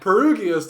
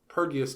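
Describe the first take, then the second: First: The u is pronounced between the r and g. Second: The u is silent, giving two syllables before -ius. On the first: "doesn't sound as cool to me" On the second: "I make the U silent"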